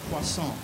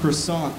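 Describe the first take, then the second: First: It is said with an exaggerated French accent. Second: It is said with a plain American accent. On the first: "everybody pronounces it with a French accent" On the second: "I pronounced croissant without a French accent"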